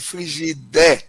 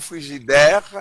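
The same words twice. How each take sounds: First: The word has a creolized pronunciation. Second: The word has its standard French pronunciation. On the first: The word is adapted into Creole. "on va créoliser le mot" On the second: The word is kept as borrowed from French. "le mot frigidaire devienne"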